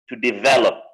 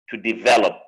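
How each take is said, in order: No difference in how they are said.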